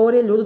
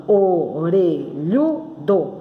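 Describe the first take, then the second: First: Said in the usual way. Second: Orelhudo slowly split into o... re... lhu... do; syllable by syllable. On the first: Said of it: "eu falando orelhudo". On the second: Shown as a demonstration. Teacher counting syllables on fingers, orelhudo slowly separated. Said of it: "ó, eu falando orelhudo".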